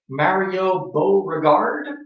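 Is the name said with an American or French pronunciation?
American. The name is said with an American pronunciation. "I'm guessing Americans would pronounce it"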